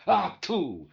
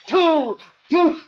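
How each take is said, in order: First: Mild grumpy exclamation. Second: Much higher and louder, yelling "Two! Two!"; shouting match. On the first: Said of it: "he'd go". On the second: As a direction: hurl it back and forth like a street slanging match. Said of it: "they're spitting at each other all the way". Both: Retold or imitated.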